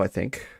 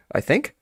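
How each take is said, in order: First: Said in the usual way. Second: "I think?" said with a rising, unsure question tune. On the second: Shown as a demonstration. Reading the letter aloud, "I think?" as a question. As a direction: end "think" on a lifted, doubtful rise. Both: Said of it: "So many I thinks".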